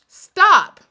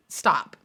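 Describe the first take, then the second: First: Much higher, louder Stop. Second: Said in the usual way. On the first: Real, not acted. To critics whining online, loud high Stop. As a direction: cut them off hard.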